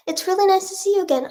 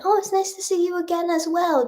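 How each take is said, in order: First: Light high-pitched sweet voice; high story character voice. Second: Said in the usual way. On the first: Pretend. Voicing a made-up story character.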